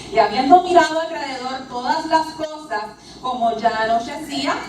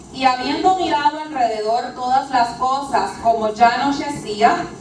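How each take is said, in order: The two takes are said the same way.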